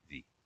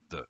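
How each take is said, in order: First: The word has a longer vowel. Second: The word has a very short vowel. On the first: This form comes before a vowel sound. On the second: This form comes before a consonant sound.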